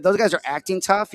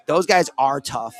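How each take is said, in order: First: Said in the usual way. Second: Slow, with weight on "tough"; stress on tough. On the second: Retold or imitated. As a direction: lean into "tough" and slow the whole line down. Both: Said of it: "He's like".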